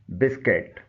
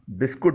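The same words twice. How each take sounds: First: بسکٹ said "BIS-ket"; short e in the end of بسکٹ; correct biscuit pronunciation. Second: بسکٹ said "bis-kut" with u; rounded u in the end of بسکٹ; local mispronunciation. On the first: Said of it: "اس کا درست تلفظ ہے". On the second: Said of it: "درست تلفظ نہیں ہے". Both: Shown as a demonstration.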